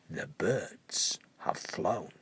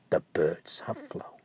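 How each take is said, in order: First: Much lower, softer and slow; dramatic hush. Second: Lower, whispered; whispered reveal. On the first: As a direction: drop it ominously. Dramatic reveal. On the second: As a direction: breathe it out. Repeat reveal. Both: A narrator's reading.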